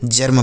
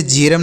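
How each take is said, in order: First: "जर्म" as one syllable, jarm; ER as short A. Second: "जेरम" as je-ram, two syllables; E misreading. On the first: Teacher corrects je-ram for pupils, "जर्म" as jarm. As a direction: say "जर्म" with short a before r-m, lower. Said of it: "जर्म पढ़ा जाएगा". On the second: Teacher shows what not to read, "जेरम" as je-ram. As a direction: say "जेरम" with an e after j. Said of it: "इसे जेरम नहीं". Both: Shown as a demonstration.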